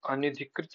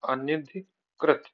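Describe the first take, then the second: First: अनधिकृत said quickly as "anidhikrit"; wrong form. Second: Slow अनधिकृत, broken into parts; corrected form. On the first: (अनधिकृत, जल्दी में गलत रूप) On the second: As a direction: spell out अनधिकृत slowly in chunks. (अनधिकृत, धीरे-धीरे तोड़कर) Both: Shown as a demonstration. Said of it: "अनधिकृत नहीं".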